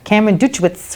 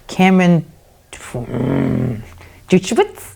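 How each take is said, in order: First: The name is said quickly and confidently. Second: The name is said slowly with a hesitant pause.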